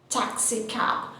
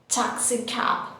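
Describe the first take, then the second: Both takes have the same delivery.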